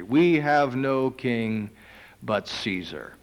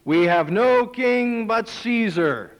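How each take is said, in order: First: Slow, weighty echo of the line; slow solemn repeat. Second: Slow, higher, louder defiance; defiant declaration. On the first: Preacher repeating the priests' words, slow and grave. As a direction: lay each word down gravely. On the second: Chief priests answering Pilate, slow and defiant. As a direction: spell it out slowly and defiantly. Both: Acted.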